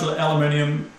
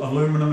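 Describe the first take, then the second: First: It is said the speaker's own, non-American way. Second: It is said the American way.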